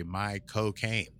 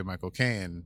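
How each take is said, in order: First: Slow Cockney "My cocaine" for Michael Caine; "My cocaine", the Cockney way he says his name; Michael Caine accent. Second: Said in the usual way. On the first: Shown as a demonstration. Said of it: "in his accent is you say". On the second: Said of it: "the way you say Michael Caine".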